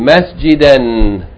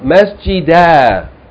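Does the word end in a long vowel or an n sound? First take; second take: n sound; long vowel. First: The word ends with a short vowel plus n. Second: The word ends with a long a vowel. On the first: The reader continues on without stopping. "Continue reading, you pronounce the Tanween" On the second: The reader stops or pauses on the word. "you pronounce Fatha elongated by Aleph. This Aleph is read as a long vowel"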